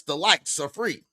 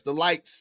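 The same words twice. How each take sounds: First: Likes said as plain likes; likes, the free kind. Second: "likes" here meaning lights, same sound. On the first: Spelling out likes to a chat audience, plain. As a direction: say "likes" as the word likes. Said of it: "the L I K E S". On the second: Joking that lights and likes sound alike, rising. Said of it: "the L I G H T S". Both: Shown as a demonstration.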